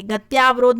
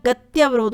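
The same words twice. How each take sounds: First: गत्यावरोध with long tyaa; wrong form. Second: गत्यवरोध with short tya; correct form. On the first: Teacher showing an exam mistake, गत्यावरोध with long tyaa. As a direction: stretch the middle of गत्यावरोध to tyaa. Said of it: "गत्यावरोध नहीं होता". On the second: Teacher giving the exam answer, गत्यवरोध with short tya. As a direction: keep gatya short before varodh in गत्यवरोध. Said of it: "गत्यवरोध होता है". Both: Shown as a demonstration.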